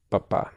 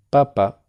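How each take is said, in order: First: Papá, stressed on the closing á; stress on last syllable. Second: Papa, first syllable high and loud, then falling; stress on first syllable. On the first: Teacher's second repetition for student, final stress on papá. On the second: Teacher's second repetition for student, first-syllable stress on Papa. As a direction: punch the opening Pa of Papa. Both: Shown as a demonstration. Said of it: "Voy a repetirlo dos veces".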